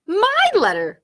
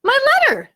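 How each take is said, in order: First: Higher, louder, but a notch below Bunny; crying out. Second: Higher and louder, snatching it; a child's loud possessive cry; grabby claim. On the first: Squirrel snatching the letter back from Bunny, crying out. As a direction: cry it out, grabbing it back. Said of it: "cried Squirrel". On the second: Bunny grabbing the letter from Squirrel, loud claim. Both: Acted.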